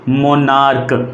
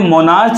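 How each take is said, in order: First: The word ends with a 'k' sound. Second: The word ends with a 'ch' sound. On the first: The speaker calls it right. "लेकिन ये मोनार्क है" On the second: The speaker calls it wrong. "बहुत से लोग इसे मोनार्च बोल देते हैं"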